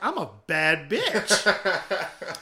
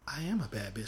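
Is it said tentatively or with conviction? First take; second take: with conviction; tentatively. First: It is said confidently, with real conviction. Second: It is said tentatively, without much conviction.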